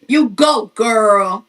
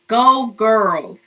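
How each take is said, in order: First: It is said in a Martin impression voice. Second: It is said in her normal voice.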